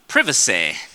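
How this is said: It is said in a British accent.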